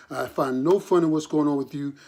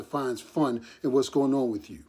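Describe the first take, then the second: First: No pressed hard to deny it; I find no fun with the weight on no; stress on no. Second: Said in the usual way. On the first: Real, not acted. A father to his son, stress on no. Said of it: "put my name out there saying that your father". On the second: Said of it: "put my name out there saying".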